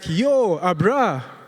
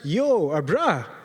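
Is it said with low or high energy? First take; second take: high; low. First: It is said with loud, punchy energy. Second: It is said with ordinary, low energy.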